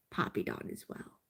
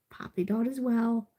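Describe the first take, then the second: First: Barely voiced soothing repeat; whispered mantra. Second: Said in the usual way. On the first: Real, not acted. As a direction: whisper it under your breath to calm down.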